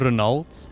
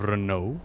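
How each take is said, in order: First: The name is not said like the car brand. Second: The name is said like the car brand. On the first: This is how the character says the name. The speaker calls it right. "He calls him Renault" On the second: This is how the name was assumed to sound. The speaker calls it wrong. "I always thought it was Renault, like the auto brand"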